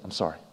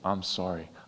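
First: It is said carelessly, without real feeling. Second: It is said earnestly, with real feeling.

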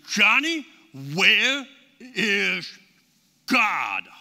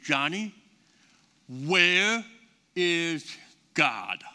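First: It is said louder, with thunder in the voice. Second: It is said at a normal, quieter volume.

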